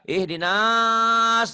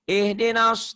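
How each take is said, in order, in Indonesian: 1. Vokal setelah n dibaca panjang. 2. Vokal setelah n dibaca pendek. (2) "nggak panjang nih"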